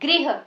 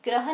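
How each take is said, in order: First: The word is said with a 'ri' sound. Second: The word is said with a plain 'ra' sound. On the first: The speaker calls it right. "इसका उच्चारण होता है गृह। ग्री, री की sound इसमें आती है" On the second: The speaker calls it wrong. "इसका जो उच्चारण है वो भी ग्रह नहीं होता है"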